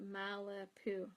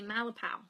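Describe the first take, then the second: First: The last syllable sounds like 'pew'. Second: The last syllable sounds like 'pow'. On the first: The speaker calls it wrong. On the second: The speaker calls it right.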